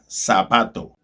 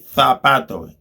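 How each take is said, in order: First: The z sounds like s, South American style. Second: The z sounds like th, Spain style.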